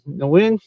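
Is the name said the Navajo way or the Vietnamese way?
Vietnamese. The name is said the Vietnamese way. "that's how his name is properly pronounced"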